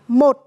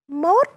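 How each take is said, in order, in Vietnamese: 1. Từ này được nói theo dạng gốc. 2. Từ này được nói theo dạng biến đổi. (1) "Không phải là 1" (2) "mà là mốt"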